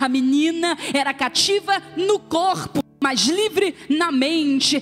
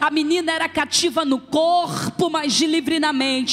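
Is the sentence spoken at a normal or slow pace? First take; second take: slow; normal. First: The sentence is spoken very slowly and deliberately. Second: The sentence is spoken at a normal pace.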